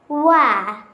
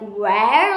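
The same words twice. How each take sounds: First: It is said in a British accent. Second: It is said in an American accent. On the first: The speaker calls it right. "We say where" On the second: The speaker calls it wrong. "We don't say like where like in American English"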